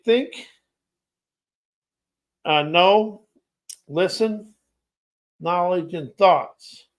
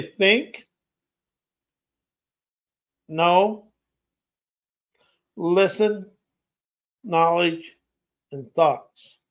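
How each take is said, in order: First: Words set apart by pauses; slow word list. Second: Long pauses between single words; extra slow. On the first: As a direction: say each word on its own, unhurried. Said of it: "I'm gonna say this slow". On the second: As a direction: leave each word hanging before the next one. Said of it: "I'm gonna go slow". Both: Shown as a demonstration.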